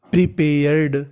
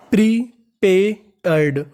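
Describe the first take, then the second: First: Said in the usual way. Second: प्रीपेयर्ड stretched slowly, syllable by syllable; slow syllable reading. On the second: Shown as a demonstration. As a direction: draw out प्रीपेयर्ड for the class.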